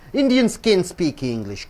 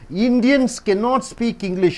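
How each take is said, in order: First: A short contracted form replaces the full cannot. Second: The full form cannot is said with both syllables. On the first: The speaker calls it right. "You should say can" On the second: The speaker calls it wrong. "You don't say cannot"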